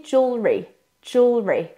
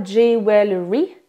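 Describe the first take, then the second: First: Jewelry squeezed to two syllables, jool-ree; correct jewelry. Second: Jewelry in three syllables, jew-well-ree; mispronounced jewelry. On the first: Coach models the word for French learners, reduced jewelry. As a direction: say jewelry with the middle vowel reduced. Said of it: "mais il se dit". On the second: Coach shows French learners the mistake, spelled-out jewelry. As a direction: say jewelry as it is spelt, with a full "well". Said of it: "il ne se dit pas". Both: Shown as a demonstration.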